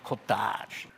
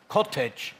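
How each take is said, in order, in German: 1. Es wird französisch ausgesprochen. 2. Es wird englisch ausgesprochen. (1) "aber die Wiener sagen Cottage, also Französisch" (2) "die Einwohner des Nobelviertels sagen Cottage"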